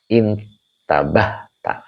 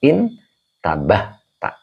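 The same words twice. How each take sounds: First: "Intabah tak" drawn out with a rising end; slow model reading. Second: "Intabah tak" drawn out again, rising at the end; slow model reading. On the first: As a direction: stretch "Intabah tak" slowly for the class. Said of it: "ini udah ada yang bisa". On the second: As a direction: read "Intabah tak" slowly and clearly. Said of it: "Jadi dibaca intabah". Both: Shown as a demonstration.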